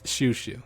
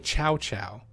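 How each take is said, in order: First: Each syllable starts with sh and rhymes with too. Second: Each syllable starts with ch and rhymes with cow. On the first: The speaker calls it right. "It's it's Shoo Shoo" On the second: The speaker calls it wrong. "They might even say Chow Chow"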